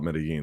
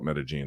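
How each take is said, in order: First: The double L is said as an L. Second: The double L is said as a J.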